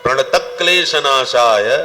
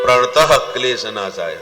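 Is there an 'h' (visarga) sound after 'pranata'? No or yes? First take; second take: no; yes. First: Pranata runs straight into klesha without h. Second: An h sound follows pranata before klesha. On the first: The speaker calls it right. "विसर्ग नहीं लगाना चाहिए" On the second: The speaker calls it wrong. "बहुत से लोग बोलते हैं"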